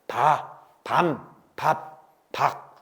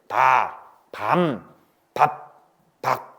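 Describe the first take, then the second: First: The syllables are read plainly without extra force. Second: The syllables are read with exaggerated, forceful endings.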